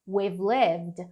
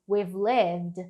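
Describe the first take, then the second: First: We and have merge into one short syllable. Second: We and have merge into one short syllable.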